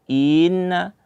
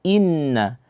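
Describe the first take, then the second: First: The opening vowel sound is dragged out. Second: The opening vowel sound is crisp, not dragged. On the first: The speaker calls it wrong. "jangan sampai kita membaca dengan menyeret bacaan uh, daripada huruf hamzah" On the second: The speaker calls it right. "kita harus memberi hak pada huruf hamzah, kemudian baru masuk kepada huruf nun"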